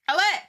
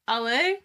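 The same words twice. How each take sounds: First: The word is said forcefully, with more feeling. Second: The word is said flatly, with little feeling.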